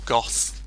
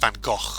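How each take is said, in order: First: The name ends in a soft 'th' sound. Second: The name ends in a rasping throat sound. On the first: The speaker calls it wrong. "I don't think obviously that's the correct pronunciation" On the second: The speaker calls it right. "technically supposed to be pronounced Van Gogh like that"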